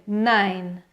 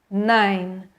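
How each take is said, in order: The two takes are said the same way.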